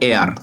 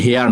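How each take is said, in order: First: "এয়ার" starting straight on the vowel; teacher's model of "এয়ার", the h left silent. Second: "হেয়ার" with an audible h at the start; H sounded. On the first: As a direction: say "এয়ার" with no h at all. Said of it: "উচ্চারণটা এয়ার". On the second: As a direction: say "হেয়ার" with the h pronounced, as the mistake to avoid. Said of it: "উচ্চারণটা কিন্তু হেয়ার না". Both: Shown as a demonstration.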